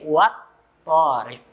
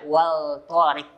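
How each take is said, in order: First: The L is dropped and merges into T. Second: The L sound is clearly pronounced before T. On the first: The speaker calls it right. "dengarkan baik-baik, wat torik. Maka alif lamnya hilang" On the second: The speaker calls it wrong. "jangan dibaca wal torik karena ini bukan izhar"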